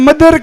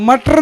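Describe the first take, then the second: First: The middle consonant is a soft d sound. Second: The middle consonant is a hard t sound. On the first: The speaker calls it right. "मदर के" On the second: The speaker calls it wrong. "ए मटर ने कहता"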